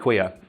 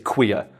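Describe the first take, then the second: First: The word is said in a plain, neutral way. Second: The word is said with a contemptuous sneer. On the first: It is a normal fact about who the person is. "as it's a normal thing" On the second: The person is dismissed as one of those. "add that little sneer to. Because I think the way Homer said it is queer"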